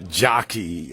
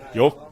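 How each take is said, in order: First: The name starts with a J sound, American style. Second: The name starts with a Y sound, Swedish style.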